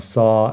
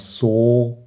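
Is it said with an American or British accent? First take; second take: American; British. First: It is said with an American accent. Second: It is said with a British, closer O.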